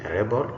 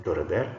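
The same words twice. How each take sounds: First: A REBel, noun stress; stress on first syllable. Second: To reBEL, verb stress; stress on second syllable. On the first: Teacher reads the bold noun, first-syllable stress on "rebel". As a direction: hit "reb" in "a rebel". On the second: Teacher reads the bold verb, second-syllable stress on "rebel". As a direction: hit "bel" in "to rebel". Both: Shown as a demonstration. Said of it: "emphasis is going to be on the words".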